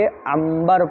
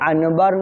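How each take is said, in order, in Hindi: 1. b से पहले की नासिक ध्वनि नासिकीकृत m है। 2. b से पहले की नासिक ध्वनि सादा n है। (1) "नून साकिन और तनवीन को मीम से बदल कर पढ़ते" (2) "यहाँ अनबर नहीं"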